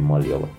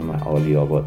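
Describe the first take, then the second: First: The place name is said in a shortened form. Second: The place name is said in its full form. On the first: This is how local people say the name. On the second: This is the official name of the street.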